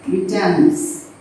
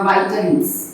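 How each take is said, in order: First: First syllable of "Vitamins" rhymes with "bit"; short-i vitamins. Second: First syllable of "vitamins" rhymes with "bite"; long-i vitamins. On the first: Teacher offering class both pronunciations, "Vitamins" said VIT-uh-mins. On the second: Teacher offering class both pronunciations, "vitamins" said VYE-tuh-mins. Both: Shown as a demonstration. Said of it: "Vitamins or vitamins".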